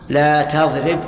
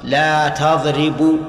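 First: The verb ends with no final vowel. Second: The verb ends with a final vowel. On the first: The speaker calls it right. "صح صح، لأن لا ناهية فتجزم الفعل المضارع" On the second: The speaker calls it wrong. "خطأ"

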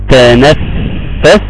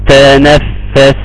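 First: The doubled f sound is held too long. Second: The doubled f sound is held briefly. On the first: The speaker calls it wrong. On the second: The speaker calls it right.

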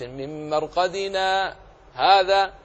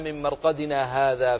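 First: A brief silent pause comes before hadha. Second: Marqadina and hadha run together without a pause. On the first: This begins a new statement. The speaker calls it right. "لذلك جاءت السكت لحفص" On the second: This refers back to the place of sleep. The speaker calls it wrong. "لكن إن وصلت"

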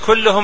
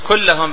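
First: The vowel after the double L is u. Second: The vowel after the double L is a. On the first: The word is in the nominative case. The speaker calls it wrong. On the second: The word is in the accusative case. The speaker calls it right.

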